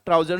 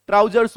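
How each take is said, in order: First: "ट्राउजर" with no final s; wrong singular form. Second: "ट्राउजर्स" with a clear final s; correct plural form. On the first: Teacher showing students the mistake, "ट्राउजर" cut off without s. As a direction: drop the s, ending "ट्राउजर" on r. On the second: Teacher correcting students on the word, "ट्राउजर्स" ending in s. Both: Shown as a demonstration. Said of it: "ट्राउजर नहीं होता है".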